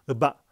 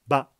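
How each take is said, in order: First: A short lead-in vowel comes before the syllable. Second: The syllable starts directly with no lead-in vowel. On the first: "을을 짧게 넣어서" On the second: "을을 다 빼고"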